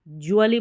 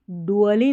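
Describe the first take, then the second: First: "ज्युअली" with J in place of D; J sound. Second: "डुअली" with hard initial D; wrong D sound. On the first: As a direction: sound "ज्युअली" as joo-a-lee. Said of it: "ज्युअली पढ़ते हैं". ("ज्युअली" को ज से बोलें) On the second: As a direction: sound "डुअली" as doo-a-lee. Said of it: "हम डुअली नहीं". ("डुअली" को ड से बोलें) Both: Shown as a demonstration.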